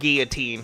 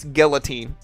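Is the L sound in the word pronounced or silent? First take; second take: silent; pronounced. First: The L sound is left out. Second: The L sound is clearly pronounced. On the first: "I'm used to not pronouncing the L" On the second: "every time I hear somebody in jiu-jitsu say it"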